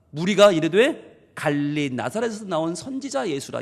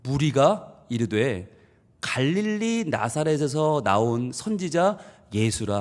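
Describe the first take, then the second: First: A touch of belittling in the voice; dismissive reading. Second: Slow, flat-toned, deflating the name; slow dismissive reading. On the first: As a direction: say it like he's nobody special. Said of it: "예수님을 완전히 깔아뭉개는 말이에요". (깔보듯이 읽기) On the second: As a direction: read it slowly as if shrugging him off. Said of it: "이 말의 뉘앙스를 아셔야 돼요". (천천히 김빠지게 읽기) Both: Shown as a demonstration.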